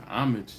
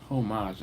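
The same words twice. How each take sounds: First: Said in the usual way. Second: Homage with a silent h and a long French ah-zh ending. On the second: Shown as a demonstration. Host mocking the fancy word, homage as oh-MAHZH. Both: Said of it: "I don't like saying homage".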